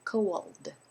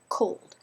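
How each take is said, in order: First: The word is drawn out into two syllables. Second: The word is said as one short syllable. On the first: The speaker calls it wrong. "You don't say" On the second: The speaker calls it right. "meant to be just one syllable"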